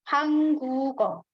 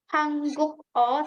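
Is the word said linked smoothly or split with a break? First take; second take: linked; split. First: The word is linked smoothly with no break. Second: The word is split with a break before o. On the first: The speaker calls it right. "tapi hangguko" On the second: The speaker calls it wrong. "kita nggak pisah"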